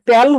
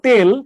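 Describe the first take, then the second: First: The vowel is an open ae sound. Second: The vowel is a closed e sound. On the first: The speaker calls it wrong. "এটা যদি আপনার কারো উচ্চারণে তেল হয়ে যায়" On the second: The speaker calls it right. "শব্দ হলো তেল"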